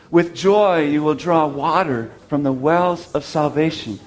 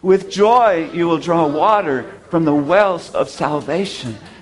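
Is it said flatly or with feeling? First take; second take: flatly; with feeling. First: It is said in a plain, flat way. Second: It is said with lively, emotional feeling.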